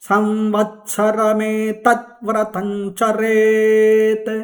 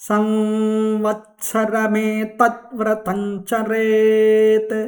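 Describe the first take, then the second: The two takes are said the same way.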